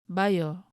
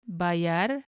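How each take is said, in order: First: The word ends in an O sound. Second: The word ends with a clear R sound.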